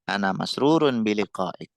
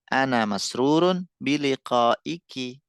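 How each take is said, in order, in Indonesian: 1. Kata terakhir berakhir dengan bunyi konsonan. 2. Kata terakhir berakhir dengan bunyi vokal.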